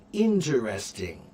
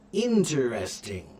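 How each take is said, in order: No difference in how they are said.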